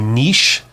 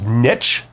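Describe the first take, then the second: First: It is said the Canadian way. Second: It is said the American way.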